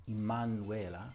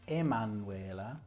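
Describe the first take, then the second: Both takes have the same delivery.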